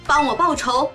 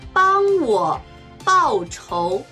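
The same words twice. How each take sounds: First: It is spoken at natural fast speed. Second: It is spoken slowly and deliberately. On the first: "中国語ネイティブスピード1 回" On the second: "中国語ゆっくりスピード1 回"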